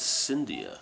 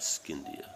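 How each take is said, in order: First: The name begins with a sound like 'Cindy'. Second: The name does not begin like 'Cindy'. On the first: The speaker calls it right. "like Cindy's" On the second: The speaker calls it wrong. "not Scindia"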